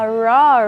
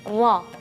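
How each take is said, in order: First: The r is curled back, like English r. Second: The r is a single tap on the palate. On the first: The speaker calls it wrong. "seperti kalau misalnya memang kalau bahasa Inggris ya" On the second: The speaker calls it right. "mengangkatkan uh, punggung ujung lidah ke langit-langit sampai dia nyampe nyentuh, terus dia bergetarnya hanya sekali saja"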